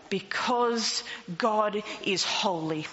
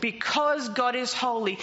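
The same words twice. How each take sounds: First: Slow emphatic. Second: Said in the usual way. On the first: Shown as a demonstration. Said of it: "repeated for emphasis, slow take". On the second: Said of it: "repeated, quicker take".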